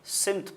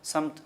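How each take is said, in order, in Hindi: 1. पहला स्वर छोटा 'i' है। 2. पहला स्वर छोटा 'a' है।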